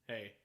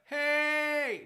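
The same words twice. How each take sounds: First: The pitch stays level on the word. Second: The pitch rises on the word. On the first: The speaker calls it right. "Just like flat" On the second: The speaker calls it wrong. "none of that"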